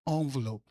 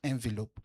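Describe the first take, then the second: First: It is said in a posh, put-on accent. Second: It is said in the speaker's plain accent. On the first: The speaker is trying to sound refined. "I say envelope" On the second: The speaker is not trying to sound refined. "and not envelope"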